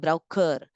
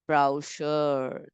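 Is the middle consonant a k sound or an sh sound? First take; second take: k; sh. First: The middle consonant is a k sound. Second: The middle consonant is an sh sound. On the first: The speaker calls it wrong. "You don't say this as brochure or brow, uh, browker" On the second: The speaker calls it right. "It is making the sound as S H"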